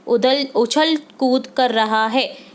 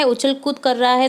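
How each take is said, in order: First: उछल कूद spoken slowly and deliberately, leaning on उछल; slow stressed answer. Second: Said in the usual way. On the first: Shown as a demonstration. Teacher reading the worksheet answer to students, slow and stressed. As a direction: drag out उछल कूद so students catch the adverb. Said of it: "क्रिया विशेषण शब्द है". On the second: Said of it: "कैसे कर रहा है?".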